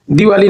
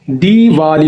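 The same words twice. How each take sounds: First: दिवाली with a quick short 'di'; short first vowel. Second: दीवाली with a drawn-out 'dee'; long first vowel. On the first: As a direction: say दिवाली as di-vaa-lee, first i clipped short. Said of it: "दिवाली नहीं होता है". (दिवाली में छोटी इ वाला 'दि') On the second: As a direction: stretch the first syllable of दीवाली: deee-vaa-lee. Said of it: "थोड़ा लंबा". (दीवाली में 'दी' थोड़ा लंबा) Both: Shown as a demonstration.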